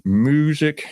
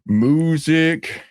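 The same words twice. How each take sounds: First: Said in the usual way. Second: "Music" said as "moo-zick", first vowel stretched; moo pun. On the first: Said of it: "how you spell this". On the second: Pretend. Doing another moo joke, "Music" said slowly as "moo-sic". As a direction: lean on a cow's moo in "Music". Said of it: "we're gonna do another moo joke".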